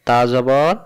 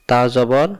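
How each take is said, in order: Both takes have the same delivery.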